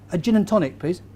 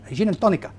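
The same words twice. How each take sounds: First: Said in the usual way. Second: Put-on Spanish accent, adding an A to "tonica"; hammed-up Spanish pronunciation of "tonica"; mock Spanish accent. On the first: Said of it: "change in the accent". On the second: Shown as a demonstration. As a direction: order "gin and tonica" like a would-be Spaniard. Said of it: "a little bit of change in the accent".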